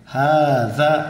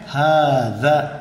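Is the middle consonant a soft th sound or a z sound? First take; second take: th sound; th sound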